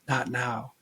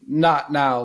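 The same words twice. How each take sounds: First: It is said softly and subtly. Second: It is said loudly and unmistakably.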